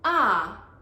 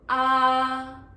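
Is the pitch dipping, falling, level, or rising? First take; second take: falling; level. First: The pitch falls sharply from high to low. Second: The pitch stays high and level. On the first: "fourth tone ah" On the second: "the first tone ah"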